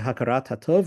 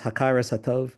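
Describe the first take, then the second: First: The first word ends with a T sound. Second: The first word ends with an S sound. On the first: "more contemporary Israeli pronunciation" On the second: "he says Hakaras Hatov"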